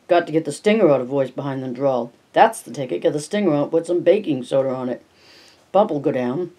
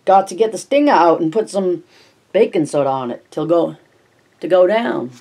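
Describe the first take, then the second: First: Put-on down East accent. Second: Put-on old Maine neighbour, broad down East accent. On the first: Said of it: "the voice was so thick with down East accent". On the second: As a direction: lay on the down East Maine accent heavier this time. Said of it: "so thick with down East accent".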